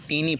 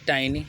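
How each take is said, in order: First: The first vowel sounds like 'ee'. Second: The first vowel sounds like 'eye'. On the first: The speaker calls it wrong. "बहुत लोग टीनी पढ़ते हैं, जबकि टीनी उपयुक्त तो नहीं है" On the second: The speaker calls it right. "अगला शब्द है टाइनी"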